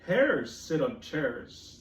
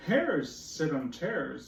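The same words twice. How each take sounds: First: Very slow, drawn out; slow cat line. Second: Slow, drawn out; cat's rhyme again. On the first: Teacher reading cat's rhyme very slowly. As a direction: stretch every word. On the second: Teacher repeating cat's rhyme slowly. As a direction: draw it out for the kids. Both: Acted. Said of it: "said the cat".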